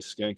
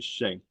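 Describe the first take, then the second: First: The name begins with an 'sk' sound. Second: The name begins with an 'sh' sound. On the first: The speaker calls it right. "Ed was saying the correct way" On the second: The speaker calls it wrong. "I say Schenk"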